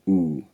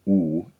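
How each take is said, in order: First: The vowel is made slightly further forward. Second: The vowel is made further back. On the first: "The through vowel is slightly fronted" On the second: "instead of being oo"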